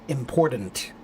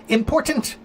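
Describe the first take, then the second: First: The middle consonant is a soft d sound. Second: The middle consonant is a clear t sound. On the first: The speaker calls it wrong. "the American pronunciation of important has a soft D" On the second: The speaker calls it right. "I said important. There's a T"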